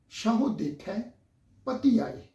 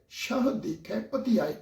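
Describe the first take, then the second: First: The first word ends with an added 'o' vowel. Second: The first word ends without a final vowel. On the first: This follows the traditional school reading. "ਉਹ ਹਾਹੇ ਦੀ ਔਂਕੜ ਦੀ ਜਿਹੜੀ ਮਾਤਰਾ ਹੈ ਉਹਦਾ ਉਚਾਰਨ" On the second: This follows the modern scholarly reading. "ਇਹ ਜਿਹੜਾ ਉਚਾਰਨ ਹੈ ਇਹ ਨਵੀਨ ਵਿਦਵਾਨਾਂ ਮੁਤਾਬਕ ਆ"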